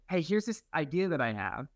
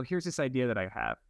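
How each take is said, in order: First: "Hey, here's this idea that I have" with a rising, open end; idea first pitched. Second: "Here's this idea that I have" falling away at the end; backing down. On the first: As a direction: pitch "idea that I have" upward, as a fresh proposal. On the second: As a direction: let "idea that I have" sink back down. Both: Retold or imitated. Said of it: "then you kinda come back down".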